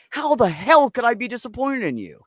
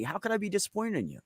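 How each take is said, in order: First: Emphatic reassurance. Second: Gentle reassurance. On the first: Parent reassuring child, emphatic. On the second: Parent reassuring child, gently. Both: Retold or imitated.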